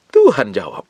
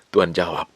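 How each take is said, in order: First: "Tuhan" punched louder, then falling; emphatic repeat. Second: Said in the usual way. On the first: Real, not acted. Preacher repeats that God answered, emphatic stress on "Tuhan". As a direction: hit "Tuhan" hard at the start.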